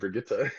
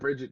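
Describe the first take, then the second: First: The name is said the German way. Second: The name is said the plain English way. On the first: "I kind of liked the sound of Brigitte. ... that's the Germanified brain" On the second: "I like Bridget too"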